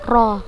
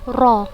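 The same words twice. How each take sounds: No difference in how they are said.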